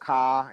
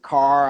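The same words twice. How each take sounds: First: The R at the end is dropped. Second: The R at the end is clearly pronounced. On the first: "I started dropping the R's" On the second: "I wasn't saying car"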